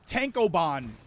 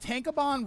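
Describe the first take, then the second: First: Each syllable is carefully and separately enunciated. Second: The word is said smoothly and run together. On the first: "sounds like I'm enunciating it more than I need to" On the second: "rolls off the tongue"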